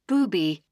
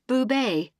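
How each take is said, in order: First: The name is said as booby, two syllables. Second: The name is said as boo-BAY, two syllables. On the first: The speaker calls it wrong. "they'll even pronounce it the all-impressive booby" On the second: The speaker calls it right. "surname is pronounced Boubet"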